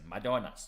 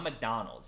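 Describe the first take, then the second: First: It is said with a Spanish accent. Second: It is said with a plain English accent. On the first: The speaker calls it right. "With the with the Spanish accent" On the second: The speaker calls it wrong. "It's not McDonald's"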